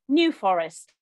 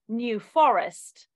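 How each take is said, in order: First: It has the American word stress pattern. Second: It has the English word stress pattern.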